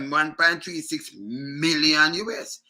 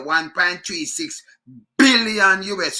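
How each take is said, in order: First: Slow phrase, MILLION stretched on its M; stress on MILLION. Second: BILLION punched out loud on the B; slow build-up, then hit the B of BILLION; stress on B. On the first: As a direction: hold the M of MILLION before finishing. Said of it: "If you put emphasis on". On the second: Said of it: "when you put emphasis on". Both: Shown as a demonstration.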